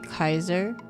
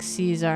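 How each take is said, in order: First: It uses the classical Latin pronunciation. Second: It uses the ecclesiastical Latin pronunciation. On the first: "the original Latin would say Kaiser" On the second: "ecclesiastical would say something like Caesar"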